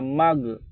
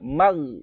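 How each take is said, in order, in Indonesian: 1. Konsonan akhir dilepas dengan pantulan. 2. Konsonan akhir dihentikan tanpa pantulan. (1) "nggak boleh ada mag" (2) "langsung dimatikan saja. Mag gitu aja"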